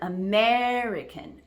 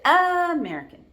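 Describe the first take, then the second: First: The stress is on the second syllable. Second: The stress is not on the second syllable. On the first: The speaker calls it right. "the second one is the louder, longer, more stressed syllable" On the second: The speaker calls it wrong. "If you said American, American, people might have a hard time understanding you"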